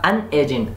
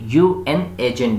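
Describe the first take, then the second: First: UN is said as one short word. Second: UN is spelled out as two letters. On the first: "यू एन ना बोल के बल्कि अन बोले" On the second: "जैसे हम यू बोलते हैं"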